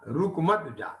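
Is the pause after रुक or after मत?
after मत. There is a pause after मत.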